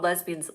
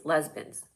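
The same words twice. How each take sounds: First: Said in the usual way. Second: Lesbians squeezed to two syllables, LEZ-bins; grandpa's pronunciation. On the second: Retold or imitated. Quoting grandpa's word, lesbians said as LEZ-bins. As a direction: drop the middle vowel of lesbians: LEZ-bins. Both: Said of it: "My grandpa called lesbians lesbians".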